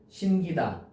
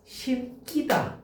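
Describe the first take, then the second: First: The 기 syllable starts with a plain consonant. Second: The 기 syllable starts with a tensed consonant. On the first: The speaker calls it right. "아니라는 거지" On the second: The speaker calls it wrong. "이제 왠지 우리가 심기다 이래야 될 거 같잖아"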